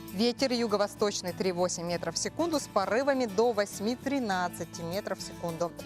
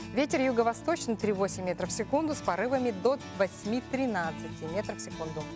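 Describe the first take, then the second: The two takes are said the same way.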